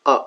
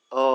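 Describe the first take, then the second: First: আ cut short and weak; short schwa. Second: আ held long; long vowel. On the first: Teacher naming the later sounds, short schwa আ. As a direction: say আ as a quick schwa. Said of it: "মানে short sound বা শোয়া". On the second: Teacher naming the first sounds, long আ. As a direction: stretch out the vowel আ. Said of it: "মানে long sound". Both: Shown as a demonstration.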